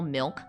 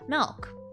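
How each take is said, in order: First: The vowel is the usual short i sound. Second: The vowel is opened toward an e sound. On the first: "he would call milk" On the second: "he wouldn't say milk, he would say M E L K"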